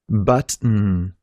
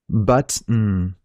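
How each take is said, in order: The two takes are said the same way.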